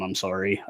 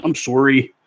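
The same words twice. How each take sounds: First: Said in the usual way. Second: Canadian "sorry", rounded SOR-ee; Canadian accent. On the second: Shown as a demonstration. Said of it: "There's the Canadian accent".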